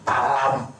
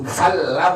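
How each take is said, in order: First: The word begins with a p sound. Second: The word begins with an f sound. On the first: The speaker calls it wrong. "bukan palam" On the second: The speaker calls it right. "Itu falam ya"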